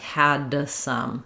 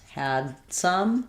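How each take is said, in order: First: The D is released with an extra sound. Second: The D is held back with no release. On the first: The speaker calls it wrong. "that ends up sounding like an extra sound" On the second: The speaker calls it right. "same thing"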